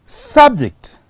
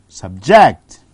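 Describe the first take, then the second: First: "Subject" as SUB-ject, high on SUB, then falling; stress on first syllable. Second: "Subject" as sub-JECT, low start, JECT punched; stress on second syllable. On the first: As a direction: hit SUB in "Subject", noun form. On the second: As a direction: hit JECT in "Subject", verb form. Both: Shown as a demonstration. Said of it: "the stress has shifted from".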